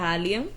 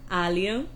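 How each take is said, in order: First: The name is said at normal speed. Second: The name is said slowly and carefully.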